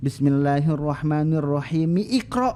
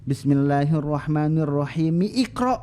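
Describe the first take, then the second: First: The phrases run together, keeping the i sound. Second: The same.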